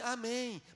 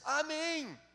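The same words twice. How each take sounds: First: The word is said weakly and feebly. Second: The word is said loudly and strongly. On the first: The listener agrees only half-heartedly. "um amém bem, bem xoxo" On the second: The listener agrees with enthusiasm. "aumentou o amém deles"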